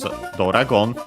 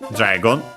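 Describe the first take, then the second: First: An extra vowel follows the first consonant. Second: The first consonants join with no vowel. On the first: This is the Japanese loanword form. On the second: This is the original English form.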